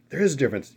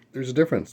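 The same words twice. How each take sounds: First: "is" leaned on, higher and louder in a huffy mock protest; mock indignant correction. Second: Said in the usual way. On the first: Imitating a New Yorker correcting him, mock huffy. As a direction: play the offended New Yorker insisting "is". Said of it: "New York people be like". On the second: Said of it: "Yeah, I know".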